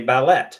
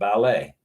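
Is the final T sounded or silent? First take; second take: sounded; silent. First: The final T is pronounced. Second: The final T is not pronounced.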